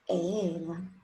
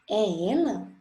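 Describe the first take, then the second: First: It is said as a plain statement. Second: It is said as a question.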